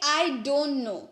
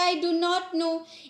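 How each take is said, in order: First: Do and not merge into one word, don't. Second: Do and not are said as separate words.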